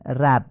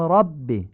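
First: 'رب' as 'rabb' with thin front 'a'; Persian-style light vowel in 'رب'; wrong light fatha. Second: 'رب' as 'robb', dark back 'a'; full, heavy short vowel in 'رب'; heavy Arabic fatha. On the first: Teacher showing what we don't say, thin 'رب'. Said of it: "نمیگیم". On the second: Teacher showing the Arabic way, heavy 'رب'. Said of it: "میگیم". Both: Shown as a demonstration.

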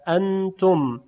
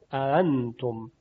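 First: اانتم with two separate hamzas; both opening a sounds of اانتم firmly articulated; full double hamza. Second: Slow اانتم, second hamza between hamza and alef; tashil, softened hamza. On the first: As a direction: break اانتم after the first a with a glottal stop. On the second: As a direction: glide through the double a of اانتم without a glottal break. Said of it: "با صدای بین همزه و الف". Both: Shown as a demonstration.

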